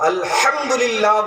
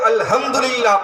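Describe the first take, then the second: First: The word is said with careful precise articulation. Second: The word is said with casual everyday articulation. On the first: Only those trained in proper recitation say it this way. The speaker calls it right. "वही लोग पढ़ते हैं जो किसी कारी के पास जाकर तलफ़्फ़ुज़ और सही अदायगी का दर्स लिया है" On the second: This is how most people commonly recite it. The speaker calls it wrong. "उमूमन लोग अल्हम्दुलिल्लाह पढ़ते हैं"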